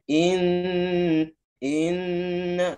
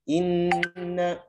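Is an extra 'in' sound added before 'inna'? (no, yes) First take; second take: yes; no. First: An extra 'in' sound comes before 'inna'. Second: 'Inna' starts directly with no added sound. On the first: The reciter entered late and added a sound. The speaker calls it wrong. "itu termasuk udah telat masuk ya" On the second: The reciter entered directly on time. The speaker calls it right. "Inna langsung masuk"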